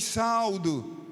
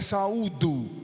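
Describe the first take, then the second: First: The stress is on the first syllable. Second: The stress is on the second syllable. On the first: The speaker calls it wrong. "eu vos saldo" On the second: The speaker calls it right. "a pronúncia correta é saúdo"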